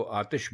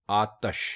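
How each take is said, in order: First: आतिश with an i after the t, aa-tish; common wrong form. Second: आतश with a short a after the t, aa-tash; correct pronunciation. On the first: Teacher showing the common mistake: आतिश as aa-tish. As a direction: say आतिश the way people usually get it wrong, aa-tish. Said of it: "ये आतिश नहीं है". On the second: Teacher giving the correct form: आतश as aa-tash. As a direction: stress the correct आतश, aa-tash, not aa-tish. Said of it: "ते के ऊपर आप ज़बर डालेंगे". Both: Shown as a demonstration.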